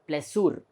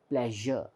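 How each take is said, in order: First: The middle consonant is not a zh sound. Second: The middle consonant is a zh sound. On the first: The speaker calls it wrong. "We don't say pleasure" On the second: The speaker calls it right. "We pronounce it as pleasure"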